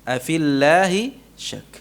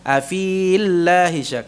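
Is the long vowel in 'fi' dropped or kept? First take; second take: dropped; kept. First: The vowel in fi is short, madd dropped. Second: The vowel in fi is long, madd kept. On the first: The speaker calls it right. "digugurkan hurufnya, huruf madnya" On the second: The speaker calls it wrong. "bukan afillahi syak, bukan"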